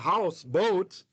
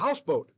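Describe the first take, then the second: First: Both words carry their own stress. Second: Only one stress falls on the whole word. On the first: Two separate things side by side. The speaker calls it wrong. "you don't have a house boat" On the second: A single compound thing. The speaker calls it right. "just one accent as if it's one word"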